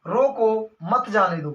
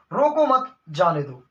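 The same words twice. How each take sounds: First: Slow रोको, break, मत जाने दो; pause after रोको. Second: रोको मत as one, break, जाने दो lower; pause after मत. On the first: Teacher recapping the example, pause after रोको. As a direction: set रोको apart, join मत जाने दो. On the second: Teacher recapping twisted version, pause after मत. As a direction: join रोको मत, set जाने दो apart. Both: Shown as a demonstration. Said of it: "इस विराम चिन्ह को यहाँ से उठा के".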